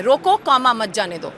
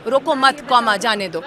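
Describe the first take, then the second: First: रोको — pause — मत जाने दो; pause after roko. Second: "रोको मत" together, pause, then "जाने दो"; pause after roko mat. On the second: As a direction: break after "मत" so "जाने दो" stands alone. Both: Shown as a demonstration. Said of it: "बहुत अर्थ का अंतर हो जाता है".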